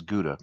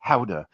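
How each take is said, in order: First: "Gouda" said as GOO-da; American pronunciation. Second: "Gouda" said as HOW-da; Dutch pronunciation. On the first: The name viewers would know, American pronunciation. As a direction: say "Gouda" with hard G and "oo". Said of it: "you would know that as Gouda". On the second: Warning viewers of his habit, Dutch pronunciation. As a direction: open "Gouda" on H, with an "ow" vowel. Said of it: "if you see me describing this as". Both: Shown as a demonstration.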